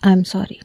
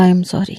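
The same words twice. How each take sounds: First: Softer, tender apology; lovingly. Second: Said in the usual way. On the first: A narrator's reading. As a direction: apologise to her with real affection. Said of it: "بڑے پیار سے کہا". (بڑے پیار سے، نرم آواز میں) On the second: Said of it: "میں نے پھر سے کہا".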